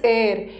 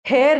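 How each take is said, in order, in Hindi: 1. यह शब्द सीधे स्वर से शुरू होता है। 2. यह शब्द 'h' की ध्वनि से शुरू होता है। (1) "इसका प्रोनाउंसिएशन इज एयर" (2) "बट इसका प्रोनाउंसिएशन हेयर नहीं है"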